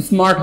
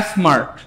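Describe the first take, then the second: First: স্মার্ট with a short "is-mart" onset; correct pronunciation. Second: স্মার্ট in Barishal style, vowel added in front, "es-mart"; Barishal-accented স্মার্ট as "es-mart". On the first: Teacher correcting the Barishal reading, short onset on স্মার্ট. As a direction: say স্মার্ট lightly, without the "es". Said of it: "স্মার্ট হবে". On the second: Teacher joking about local reading, Barishal accent. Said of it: "বরিশালের স্টাইলে আমরা পড়ি". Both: Shown as a demonstration.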